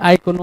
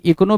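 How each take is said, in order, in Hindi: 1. यह शब्द 'eye' की आवाज़ से शुरू होता है। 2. यह शब्द 'ee' की आवाज़ से शुरू होता है। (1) "आइकोनो है" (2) "इकोनो भी नहीं है"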